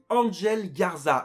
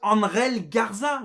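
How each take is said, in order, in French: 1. Le nom se prononce à l'anglais américain. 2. Le nom se prononce à l'espagnole. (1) "Pourquoi tout le monde dit Angel Garza?" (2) "Appelez-le Angel Garza"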